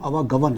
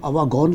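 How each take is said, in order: First: The word ends in a 'gavan' sound. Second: The word ends in a 'gaun' sound. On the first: The speaker calls it right. "उसका सही pronunciation अवागवन है" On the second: The speaker calls it wrong. "दो दफ़ा उन्होंने programme में अपने अवागौन कहा"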